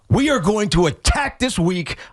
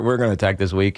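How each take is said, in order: First: It is said forcefully, with strong energy. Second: It is said weakly, with hesitant low energy. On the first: The speaker truly means it. The speaker calls it right. "you have to present it violently" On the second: The speaker sounds uncertain and unconvincing. The speaker calls it wrong. "it just it sounds weak"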